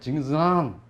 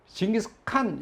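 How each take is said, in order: First: The last syllable starts with a soft nasal sound. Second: The last syllable starts with a hard K sound. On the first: The speaker calls it right. "콧소리를 해요. 칸도 아니고 한도 아니고" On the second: The speaker calls it wrong. "징기스칸 이렇게 발음하면은 싫어해요"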